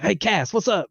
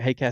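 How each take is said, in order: First: The greeting is said very loudly. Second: The greeting is said at a quiet, normal volume.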